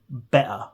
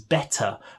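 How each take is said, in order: First: The middle T sound is dropped. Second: The middle T sound is clearly pronounced. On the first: "we often don't pronounce a T" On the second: "what we mean is better"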